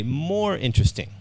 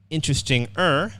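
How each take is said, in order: First: More interesting, with the stress on more; more interesting as the right answer; correct form. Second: Interesting-er, with er tacked onto the end; interesting-er marked as the mistake; wrong form. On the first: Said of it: "we say more interesting". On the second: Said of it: "we don't say". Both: Shown as a demonstration.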